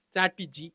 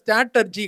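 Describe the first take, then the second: First: The middle syllable has an 'i' sound. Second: The middle syllable has an 'er' sound. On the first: The speaker calls it right. "ஸ்ட்ராட்டிஜி மாத்திக்கோ" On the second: The speaker calls it wrong. "அந்த வார்த்தை ஸ்ட்ராட்டர்ஜி கிடையாதுப்பா"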